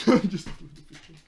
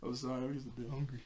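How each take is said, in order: First: Laughing. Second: Said in the usual way. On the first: Real, not acted. Repeats it laughing.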